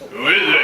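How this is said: It is said in a deep, manly voice.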